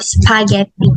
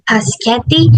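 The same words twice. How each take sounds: First: Spaghetti with s then p; correct spaghetti. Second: Paschetti with the p before s. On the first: Teacher giving the correct spaghetti after the error. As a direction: say spaghetti the standard way. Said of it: "instead of spaghetti". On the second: Teacher demonstrating the swapped spaghetti for students. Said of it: "saying paschetti instead of spaghetti". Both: Shown as a demonstration.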